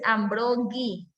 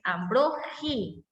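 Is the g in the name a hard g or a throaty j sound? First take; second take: hard g; throaty j. First: The g is said as a hard g. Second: The g is said like a throaty j. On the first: The speaker calls it wrong. "no es Ambrogi, porque no tiene U" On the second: The speaker calls it right. "es Ambrogi, como si fuera el sonido de J"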